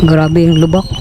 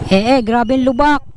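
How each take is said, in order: First: Lower, bounced over rough road; on a bumpy road. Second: Shaken "Eh, eh" over potholes; jolting stammer from the bumps; on a bumpy road. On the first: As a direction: voice jolted by potholes. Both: Real, not acted.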